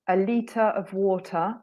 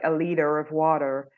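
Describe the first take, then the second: First: The T in liter is a clear T. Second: The T in liter is a soft flap. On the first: "So we don't soften the T" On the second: "We don't say like"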